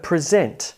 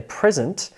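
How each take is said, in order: First: PreSENT, light first syllable; stress on second syllable. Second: PRESent, like a gift; stress on first syllable. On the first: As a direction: present as a verb, ZENT strong. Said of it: "versus the verb present". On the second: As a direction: present as a noun, PRES strong. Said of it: "present as a noun". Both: Shown as a demonstration.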